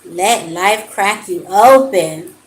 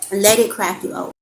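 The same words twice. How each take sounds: First: Louder and slow, every word weighed; slow emphatic affirmation. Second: Said in the usual way. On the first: Shown as a demonstration. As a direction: lean into Let life crack you open like a blessing. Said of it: "like that card said". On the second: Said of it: "So know that everything".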